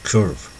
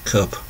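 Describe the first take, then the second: No difference in how they are said.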